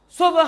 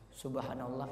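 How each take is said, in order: First: It is shouted in a loud voice. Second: It is said in a soft, quiet voice.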